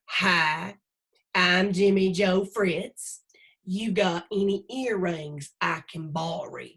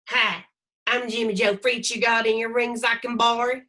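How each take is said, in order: First: Jimmy Joe's line is said slowly. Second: Jimmy Joe's line is said at normal speed.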